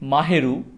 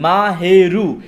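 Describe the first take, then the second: First: The syllables are joined in one smooth word. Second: Each syllable is said separately with breaks. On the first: The speaker calls it right. "একসাথে যদি আমি বলি মাহেরু" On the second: The speaker calls it wrong. "আমরা এইভাবে বলি মা হে রু, কিন্তু উচ্চারণটা কিন্তু ভুল"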